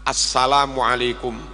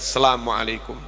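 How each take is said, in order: First: Every sound is pronounced fully and clearly. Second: Some sounds are slurred or dropped. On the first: The speaker calls it right. "Jangan ada huruf yang hilang" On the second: The speaker calls it wrong. "Bukan sekedar"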